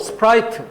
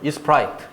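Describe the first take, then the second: First: The word starts directly with the s sound. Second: An extra i vowel comes before the s.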